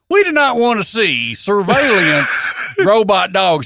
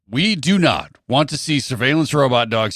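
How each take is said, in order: First: It is read in a put-on hillbilly accent. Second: It is read in the speaker's normal accent. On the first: "do my hillbilly voice" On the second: "Read it in your voice"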